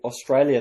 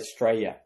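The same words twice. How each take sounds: First: The word is said in full, every syllable. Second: The word is clipped short, syllables dropped. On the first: "instead of saying" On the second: "they'd say ... they just shorten everything"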